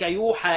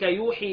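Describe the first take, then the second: First: The vowel after the H is 'a'. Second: The vowel after the H is 'i'. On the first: The revelation is made to you, with the revealer unnamed. "ابن كثير يقرا بفتح الحاء" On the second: He reveals to you. "وباقي القراء بعكس الفتح الكسر"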